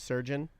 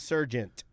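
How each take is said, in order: First: The word ends without a t sound. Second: The word ends with an added t sound. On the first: The speaker calls it right. "instead of surgeon" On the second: The speaker calls it wrong. "You say uh, Surgent instead of surgeon"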